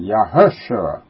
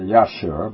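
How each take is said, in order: First: The name has a 'u' vowel in the middle. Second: The name has no 'u' vowel in the middle. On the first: The speaker calls it right. "he's supposed to pronounce it that U in there" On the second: The speaker calls it wrong. "Not the Yahshua"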